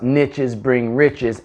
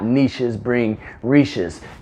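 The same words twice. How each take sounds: First: Niches is said to rhyme with riches. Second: Niches is said with a long ee sound. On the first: The speaker calls it right. "I say niche because niches bring riches" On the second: The speaker calls it wrong. "It just doesn't make any sense"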